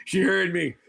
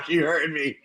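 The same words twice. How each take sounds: First: Words slipping out through a real laugh. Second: Said in the usual way. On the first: Real, not acted. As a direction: say it while failing to hold back a laugh. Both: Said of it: "I'm trying not to laugh".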